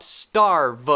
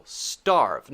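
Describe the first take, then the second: First: "starve" mispronounced "star-vuh"; "starve" broken into two loud beats; wrong two syllables. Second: "starve" as one beat, falling; single-syllable "starve". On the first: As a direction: add an extra vowel after the V in "starve". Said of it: "not starve". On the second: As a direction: end "starve" straight on the V, no extra vowel. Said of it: "It's one syllable". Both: Shown as a demonstration.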